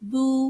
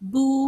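No difference in how they are said.

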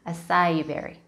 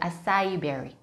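First: It is pronounced with English sounds. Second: It is pronounced with English sounds.

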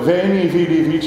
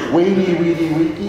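First: Each word begins with a v sound. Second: Each word begins with a w sound.

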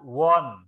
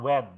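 First: The vowel sounds like an 'o'. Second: The vowel sounds like an 'e'. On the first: The speaker calls it right. "Tulisannya A, tapi dibaca won" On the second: The speaker calls it wrong. "Bukan when"

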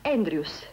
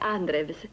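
First: The name is said with its English pronunciation. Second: The name is read letter by letter as spelled. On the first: This is how the name is pronounced. The speaker calls it right. "ma si pronuncia Andrews" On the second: This is how the name is written. The speaker calls it wrong. "si scrive Andrews"

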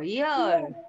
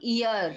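First: The word starts with a light y sound. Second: The word starts directly with a vowel sound. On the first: The speaker calls it right. "हल्की सी ईयर की आ जाती है" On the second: The speaker calls it wrong. "Not ear"

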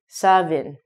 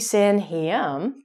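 First: The middle is said with a v sound. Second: The middle is said with m and h. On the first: The speaker calls it right. "but it's actually" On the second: The speaker calls it wrong. "it looks like it should be"

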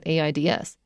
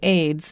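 First: It is spelled out letter by letter. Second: It is said as one word. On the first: The speaker calls it wrong. "not AIDS" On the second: The speaker calls it right. "we try to make it into word-like sounds"

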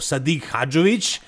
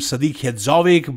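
First: The name is said with native Bosnian sounds. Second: The name is said with anglicized sounds. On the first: The speaker calls it right. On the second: The speaker calls it wrong.

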